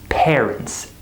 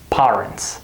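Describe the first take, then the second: First: The first vowel sounds like the vowel in 'air'. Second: The first vowel sounds like the vowel in 'car'. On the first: The speaker calls it right. "We say parents, air, like this word, air" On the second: The speaker calls it wrong. "They see A R and they say R, parents. That's not correct"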